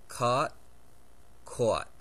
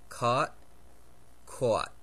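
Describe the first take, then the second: No difference in how they are said.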